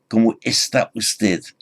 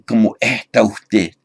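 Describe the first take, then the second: First: The s sounds are said fully. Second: The s sounds are softened to an h.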